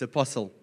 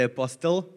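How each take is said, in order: First: The word has a standard English pronunciation. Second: The word has an Afrikaans-style pronunciation. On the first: The speaker calls it right. "it's apostle" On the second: The speaker calls it wrong. "you don't say apostle"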